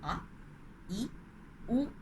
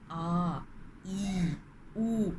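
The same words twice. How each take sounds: First: The vowels are said short and clipped. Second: The vowels are held about twice as long. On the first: "pronounced in a very short syllable" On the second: "two times of that speed"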